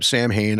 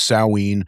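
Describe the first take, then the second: First: It sounds like 'sam-hain', with m and h. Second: It sounds like 'sow-in', with no m sound. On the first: This is how the band's name is said. "but I say it's Sam Hain" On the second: This is the pronunciation others would correct him to. "I know it's [name]"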